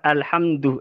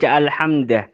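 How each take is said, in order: First: The word ends with a u vowel. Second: The word ends with an a vowel. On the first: "lafat alhamdu" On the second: "akati manasab"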